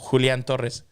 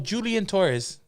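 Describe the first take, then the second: First: The name is said with Spanish pronunciation. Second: The name is said with English pronunciation. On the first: This is how the name is said at home. The speaker calls it right. "How do you say it at home?" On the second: The speaker adapts his name for an English speaker. The speaker calls it wrong. "y como vi que él hablaba inglés"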